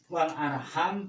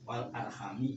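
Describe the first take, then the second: First: The word ends without a final vowel. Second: The word ends with a final i vowel. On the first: This reading has no source behind it. The speaker calls it wrong. "Jadi wal arham ini tidak ada rujukan" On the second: This reading has a source behind it. The speaker calls it right. "wal arhami juga ada"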